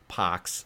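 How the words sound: The R is dropped, leaving a long ah.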